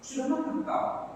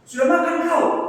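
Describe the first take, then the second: First: It is said in a gentle tone. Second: It is said in a harsh tone.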